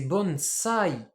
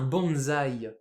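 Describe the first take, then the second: First: The word is pronounced the Japanese way. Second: The word is pronounced the French way. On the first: The speaker calls it right. "Mais en japonais, c'est bonsai" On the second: The speaker calls it wrong. "nous on appelle ça un bonsaï"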